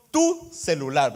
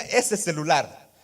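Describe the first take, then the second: First: Slow "Tu celular", TU stressed as belonging to him; personal "tu celular". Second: Slow "Ese celular", ESE stressed as something not mine; distant "ese celular". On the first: Preacher showing the congregation ownership, stressing tu. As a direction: lean warmly on "tu" in "Tu celular". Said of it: "le digo yo". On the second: Preacher contrasting a stranger's phone, stressing ese. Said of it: "yo diría". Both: Shown as a demonstration.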